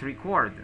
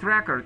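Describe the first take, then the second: First: The stress is on the second syllable. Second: The stress is on the first syllable. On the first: The speaker calls it right. "When you say a verb, you have to use the accent on the second syllable" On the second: The speaker calls it wrong. "It's not record"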